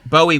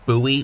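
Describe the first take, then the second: First: It is said the way the singer's name is. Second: It is said the local town way. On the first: It names the singer. "not Bowie when it comes to the Bowie when it comes to the singer" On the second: It names the town. "we pronounce the word B O W I E, Bowie, when it comes to the the town"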